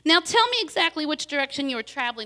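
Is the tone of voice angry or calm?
calm. It is spoken in a calm, even tone. The speaker calls it right.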